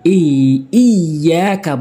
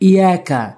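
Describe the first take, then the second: First: The doubled y sound is held as two. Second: The doubled y sound is shortened to one. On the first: The speaker calls it right. "বলতে হবে" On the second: The speaker calls it wrong. "অনেকেই বলে ইয়াকা ইয়াকা, অর্থাৎ তাসদিদ দুইবার উচ্চারণ হয়, দ্বিতীয় উচ্চারণটি বাদ দেয়।"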